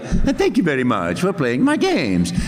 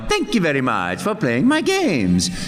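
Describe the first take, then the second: First: It is said with less energy and joy. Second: It is said with more energy and joy.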